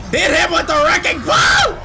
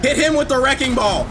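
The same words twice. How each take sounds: First: Higher, louder urgent shout. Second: Said in the usual way. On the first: Real, not acted. Gamer yelling at Ashley to use the wrecking ball, shouting. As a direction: yell it over the gunfire. Urging teammate during firefight.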